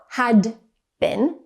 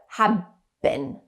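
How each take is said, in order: First: The first word ends in a clear d sound. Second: The first word ends in a b sound. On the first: "So it sounds like not had been" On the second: "but have been"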